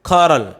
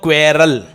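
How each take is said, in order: First: It begins with a kh sound. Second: It begins with a kw sound. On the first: The speaker calls it right. "What क्वेरल या what खौरल? खौरल।" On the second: The speaker calls it wrong. "आप बोलते हो क्वेरल"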